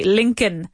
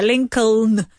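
First: Lincoln with the second L silent. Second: Lincoln with the second L sounded; L pronounced. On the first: Teacher showing how we say it, Lincoln as LINK-un. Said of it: "we don't say that L". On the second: Teacher showing the spelling, Lincoln as LINK-uln. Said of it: "That's how it's spelled". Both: Shown as a demonstration.

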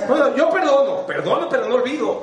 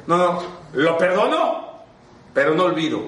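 First: A hint of a smug "I forgive but don't forget" voice, pitched high; mocking people who forgive but never forget; mock grudging forgiver. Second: Mock grudging forgiver. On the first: Speaker mocks grudging forgivers in a high voice. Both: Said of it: "Como los que dicen".

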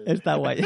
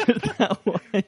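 First: Said in the usual way. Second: Laughing through the words; high, slow laughing repeat. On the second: Real, not acted.

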